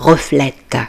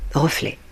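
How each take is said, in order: First: The final t is pronounced. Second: The final t is silent. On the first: The speaker calls it wrong. "On ne dit pas reflète" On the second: The speaker calls it right. "le mot T du mot reflet est muet. Il ne se prononce pas"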